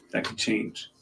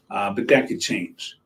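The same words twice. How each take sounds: First: Unvoiced whisper, much softer; whispered aside. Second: Said in the usual way. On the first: Shown as a demonstration. Weatherman whispering a caveat to viewers. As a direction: breathe it as a private aside.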